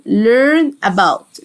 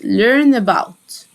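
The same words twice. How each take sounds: First: "learn about" stretched, the two words held apart; drawn-out "learn", then a separate "about"; slow pronunciation demo. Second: Said in the usual way. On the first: Shown as a demonstration. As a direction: model "learn about" slowly, word by word. Teacher models phrase word by word.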